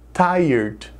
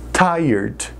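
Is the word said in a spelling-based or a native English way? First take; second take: native English; native English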